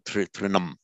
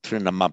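First: The word ends on the M sound. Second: A short vowel follows the final M sound. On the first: The speaker calls it right. "but trinam" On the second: The speaker calls it wrong. "it's not trinama"

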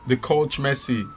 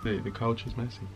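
First: It is said in Jamaican Patois, dropping 'is'. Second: It is said in standard English, keeping 'is'. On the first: "You didn't say it correctly" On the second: "That's the way they say it in English"

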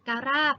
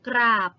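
First: The cluster is split into two syllables. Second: The cluster is said together in one syllable. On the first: The speaker calls it wrong. "ไม่ได้อ่านว่าการาบนะคะ" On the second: The speaker calls it right. "อ่านว่ากราบ"

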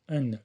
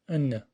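The two takes are said the same way.

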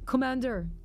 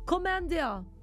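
First: It is said in a plain accent. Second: It is said in a French accent.

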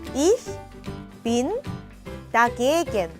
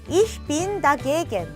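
First: Each word is said separately with pauses between. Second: The words are joined together without pauses between. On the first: "천천히 단어별로 끊어서 읽어볼게요" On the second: "조금 붙여서 천천히 같이 읽어볼게요"

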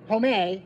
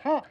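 First: The final E is pronounced as an extra syllable. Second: The final E is silent, giving one syllable. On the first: The speaker calls it wrong. "Sometimes you don't say the E at all" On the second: The speaker calls it right. "it spells home"

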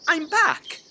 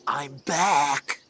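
First: It is said in a light, non-menacing way. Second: It is said in an ominous, menacing way.

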